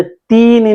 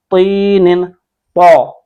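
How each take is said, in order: First: Everyday light "t" on तीन ही; wrong thin Taa. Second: तीनिन with a thick emphatic "t", then तौ full and rounded; heavy Taa. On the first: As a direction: show the mistake, a plain thin "teenin". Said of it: "इसको हमने तीन ही नहीं पढ़ना". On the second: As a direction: drill the heavy first letter of तीनिन. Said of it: "मोटा पढ़". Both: Shown as a demonstration.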